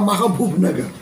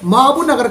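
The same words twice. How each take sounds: First: The name is said clearly and carefully. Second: The name is said in a slurred, careless way. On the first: The speaker calls it right. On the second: The speaker calls it wrong.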